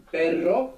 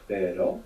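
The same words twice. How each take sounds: First: "perro" with a long trilled RR, higher and slower; rolled double R. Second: "pero" with one light tap of the R; "pero" said low, a quick single flick. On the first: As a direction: roll the RR in "perro" slowly and clearly. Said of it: "you let that flick it". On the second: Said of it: "You have normal R". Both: Shown as a demonstration.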